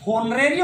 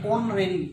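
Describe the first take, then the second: First: Wrong 'honorary', h pronounced; honorary with h sounded. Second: 'honorary' starting on the o; honorary with silent h. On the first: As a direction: say honorary as spelt, with h. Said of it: "होना चाहिए था spelling". ('होनरेरी', 'ह' बोलकर गलत) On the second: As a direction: drop the h in honorary. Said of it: "तो देखो एच है". ('ऑनरेरी', 'ह' silent) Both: Shown as a demonstration.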